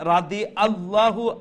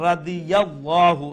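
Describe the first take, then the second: First: A glottal catch separates 'radi' from 'allahu'. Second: A y glide joins 'radi' smoothly to 'allahu'. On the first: The speaker calls it wrong. "হামজার উচ্চারণ হই যার" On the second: The speaker calls it right. "রাদিয়াল্লাহু ইয়া দিয়া"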